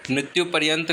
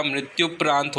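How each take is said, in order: First: मृत्यु पर्यंत said as the wrong form, पर्यंत with र्यं; teacher says the incorrect मृत्यु पर्यंत. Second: मृत्यु प्रांत said as the right form, प्रांत with long आ; teacher models मृत्यु प्रांत carefully; correct form मृत्यु प्रांत. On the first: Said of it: "मृत्यु पर्यंत नहीं होता". (गलत रूप मृत्यु पर्यंत) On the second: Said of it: "मृत्यु प्रांत सही शब्द है". (सही उच्चारण मृत्यु प्रांत) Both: Shown as a demonstration.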